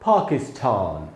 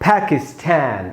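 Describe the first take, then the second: First: It is said in a British accent. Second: It is said in an American accent. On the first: "British में इसको बोलेंगे पाकिस्तान" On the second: "American में पढ़ेंगे पाकिस्तान"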